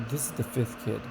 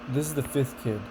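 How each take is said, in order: Both takes have the same delivery.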